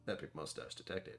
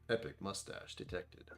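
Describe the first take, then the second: First: It is said in a robotic alert voice. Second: It is said in his normal voice.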